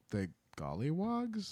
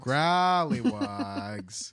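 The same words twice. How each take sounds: First: Gollywogs with a plain G and L. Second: Growlywogs slowly, rolling the GR; Growlywogs, drawn out. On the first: Real, not acted. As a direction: say Gollywogs unsure, with a rising guess. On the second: Shown as a demonstration. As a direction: stretch each syllable of Growlywogs.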